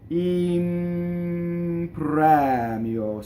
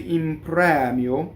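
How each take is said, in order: First: The phrase is said slowly and drawn out. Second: The phrase is said at normal speed. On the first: "in slow motion" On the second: "when you say in premio"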